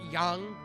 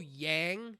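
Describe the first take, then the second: First: The name has a Chinese-style pronunciation. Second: The name has a plain English pronunciation. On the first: The speaker calls it wrong. "the Eastern, the Oriental pronunciation of the term" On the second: The speaker calls it right. "it's also Yang"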